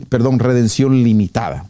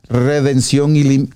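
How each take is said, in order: First: "redención limitada" said correctly after the slip; self-correction. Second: "redención ilim-" misspoken as ilimitada and cut off; slip of the tongue. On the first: Preacher correcting his slip for the congregation, careful. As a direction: correct yourself with "limitada", lim-i-ta-da. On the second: Preacher misreading the term to his audience, cut off mid-word. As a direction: stumble into "ilim-" before catching it. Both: Real, not acted.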